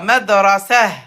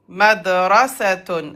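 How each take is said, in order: First: The word ends with a breathy 'h' sound. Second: The word ends with a full 'tun' syllable. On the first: The word is said at a stop. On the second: The word is said in the middle of speech.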